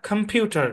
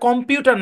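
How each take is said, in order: First: The first vowel is a weak schwa 'uh'. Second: The first vowel is a clear short 'o'. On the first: The speaker calls it right. "এখানেও সোয়া sound apply হবে" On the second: The speaker calls it wrong. "এখানে ও এর short sound হবে না, কম হবে না"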